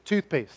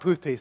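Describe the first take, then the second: First: The consonant sounds are in their usual order. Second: The first two consonant sounds are swapped. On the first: The speaker calls it right. "It's toothpaste" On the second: The speaker calls it wrong. "No, it's not pooth taste"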